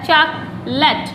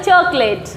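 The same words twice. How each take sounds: First: चॉकलेट said as "chok-lut"; short weak vowel ending चॉकलेट; correct pronunciation. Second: चॉकलेट said as "chok-LAYT"; long ay at the end of चॉकलेट; common mispronunciation. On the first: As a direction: model चॉकलेट as "CHAAK-lut". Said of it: "इसका सही pronunciation होता है". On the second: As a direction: say चॉकलेट the everyday way, "cho-klayt". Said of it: "चॉकलेट नहीं होता". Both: Shown as a demonstration.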